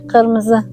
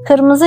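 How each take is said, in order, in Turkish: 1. Kelime g sesiyle başlar. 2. Kelime k sesiyle başlar. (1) "K'yi G'ye çevirerek söyleriz"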